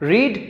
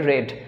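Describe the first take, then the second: First: The vowel is long, as in 'reed'. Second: The vowel is short, as in 'red'. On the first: It is the present form. "প্রনাউন্সিয়েশনটা আলাদা হয়" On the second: It is the past participle form. "Pronunciation আসে রেড"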